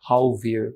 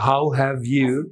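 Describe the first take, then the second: First: The 'have' shrinks to a 'v' sound. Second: Each word is said fully and separately.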